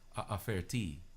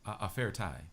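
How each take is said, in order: First: The last syllable ends with an 'ee' sound. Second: The last syllable ends with an 'eye' sound. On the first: The speaker calls it right. "That sounds a lot better than ah ah fair tie" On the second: The speaker calls it wrong. "It wouldn't sound right"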